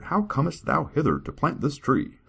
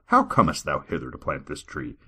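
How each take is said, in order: First: Archaic servant. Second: Said in the usual way. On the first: Acted. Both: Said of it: "talk like this".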